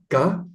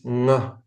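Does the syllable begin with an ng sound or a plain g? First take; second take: plain g; ng sound. First: The syllable begins with a plain hard g. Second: The syllable begins with a nasal ng sound. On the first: The speaker calls it wrong. "It's not ga" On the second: The speaker calls it right. "it's nga"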